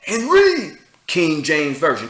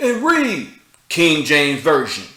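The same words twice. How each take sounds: First: Slow, loud hammed-up preacher chant; mock street preacher. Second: Lightly hammed-up preacher proclaiming; half-mock a bullhorn preacher, slow and loud; mock street preacher. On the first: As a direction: repeat it like a bullhorn sermon. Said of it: "Keep saying it". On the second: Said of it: "I want you to".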